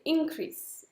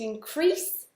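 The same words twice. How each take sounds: First: The stress is on the first syllable. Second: The stress is on the second syllable. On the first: It is used as a noun. "Si vous avez le nom, c'est increase" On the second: It is used as a verb. "si vous avez le verbe, c'est to increase, l'accent il est sur la deuxième"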